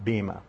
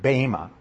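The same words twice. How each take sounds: First: The first vowel is not an 'ay' sound. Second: The first vowel is a long 'ay' sound. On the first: The speaker calls it wrong. "not bema" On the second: The speaker calls it right. "It's pronounced bema"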